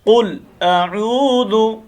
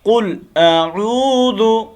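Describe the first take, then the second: First: The vowel in the second word is held long. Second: The vowel in the second word is held long.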